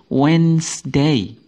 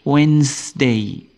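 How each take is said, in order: The two takes are said the same way.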